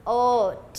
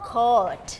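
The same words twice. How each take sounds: First: Coat split into k, long o, t; sounded out. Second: Said in the usual way. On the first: Shown as a demonstration. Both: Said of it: "Teacher Louis will dictate".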